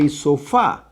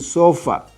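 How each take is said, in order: First: The stress is on the last syllable. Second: The stress is on the first syllable. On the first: The speaker calls it right. "having the stress in the last syllable" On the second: The speaker calls it wrong. "If I don't put the acento here, I have to say"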